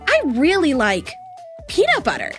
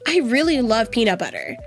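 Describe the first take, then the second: First: It is stretched with pauses between words. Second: It is said smoothly, without pauses.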